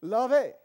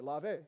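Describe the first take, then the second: First: "Lave" said LAH-vay, much louder and higher, falling; a showy full-voiced French "Lave" for the crowd; French accent. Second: Lightly French "Lave", said LAH-vay with a small rise at the end; a tentative first try at "Lave" in French; French accent. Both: Shown as a demonstration. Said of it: "I'm practicing my French accent here".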